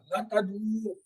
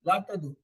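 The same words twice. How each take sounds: First: لا تدعو with a long final oo; drawn-out waw. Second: Said in the usual way. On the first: Shown as a demonstration. Teacher reciting the plural prohibition, ending of تدعو held long. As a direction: stretch the last vowel of تدعو in لا تدعو. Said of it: "واو والے کو تھوڑا سا کھینچ لے جاتے ہیں". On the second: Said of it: "تھوڑا آہستہ بولتے ہیں".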